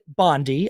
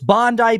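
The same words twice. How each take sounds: First: It is pronounced like the politician's surname. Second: It is pronounced as the beach's own name. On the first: The speaker calls it wrong. "I said it Bondi. ... I said Bondi instead because of Pam Bondi" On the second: The speaker calls it right. "But it's Bondi Beach"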